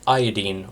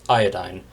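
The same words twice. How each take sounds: First: "iodine" with a long ee in the last syllable; iodine ending in -deen. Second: "iodine" with a long i in the last syllable, like "dine"; iodine ending in -dyne. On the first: Lecturer listing the halogens, "iodine" ending in -deen. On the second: Lecturer giving the alternative pronunciation, "iodine" ending in -dyne. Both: Shown as a demonstration. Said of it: "or as it's sometimes pronounced".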